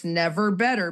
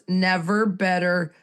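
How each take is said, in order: First: Said in the usual way. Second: "never" leaned on, slower; slow down and press "never"; slow emphatic "never better"; stress on never. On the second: Shown as a demonstration. Repeated with weight on never.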